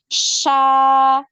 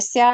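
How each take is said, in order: First: The consonant is a hushing sound with spread airflow. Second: The consonant is a hissing sound at the tongue tip. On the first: The speaker calls it right. "ada penyebaran udara, ada alirannya juga suaranya" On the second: The speaker calls it wrong. "Sa, Anda dengar gitu ya?"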